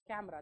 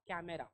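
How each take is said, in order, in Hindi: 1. बीच का स्वर पूरी तरह गिर जाता है। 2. बीच का स्वर पूरा उच्चारित होता है। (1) "यहातला ई सायलेंट आहे" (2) "नॉट कॅमेरा"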